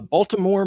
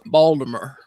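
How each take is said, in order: First: It is said in a standard accent. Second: It is said in a local Baltimore accent.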